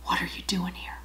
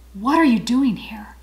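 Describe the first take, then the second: First: The Lord leaning in and whispering; breathy hush, close to the ear; soft whisper leaning in close. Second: Said in the usual way. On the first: Retold or imitated. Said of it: "he says it in a whisper". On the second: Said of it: "the second time the Lord asks him".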